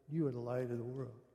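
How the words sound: It is said in a passive, flat way.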